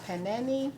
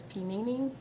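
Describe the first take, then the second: First: "panini" said pa-NAN-ee; alternative pronunciation. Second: "panini" said pee-NEE-nee; unsure pronunciation. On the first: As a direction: say "panini" with short flat a's, pa-NAN-ee. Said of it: "or panini". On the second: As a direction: say "panini" with ee in every syllable. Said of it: "I think that's what it is". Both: Shown as a demonstration.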